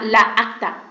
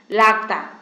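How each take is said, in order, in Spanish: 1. Los dos sonidos de la a se mantienen separados. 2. Los dos sonidos de la a se unen en una sola sílaba. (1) "no suena la acta" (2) "suena lacta"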